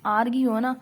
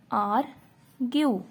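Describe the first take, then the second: First: Said in the usual way. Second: argue drawn out slowly, syllable by syllable; slow demo word. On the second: Shown as a demonstration. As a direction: stretch argue slowly for the class. (Argue को धीरे-धीरे खींचकर बोलो) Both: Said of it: "और जैसे कि example".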